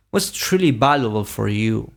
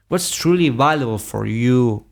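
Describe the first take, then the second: No difference in how they are said.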